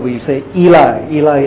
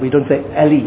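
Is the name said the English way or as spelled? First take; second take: English way; as spelled. First: The name is said in the usual English way. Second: The name is said just as it is spelled. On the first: The speaker calls it right. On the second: The speaker calls it wrong.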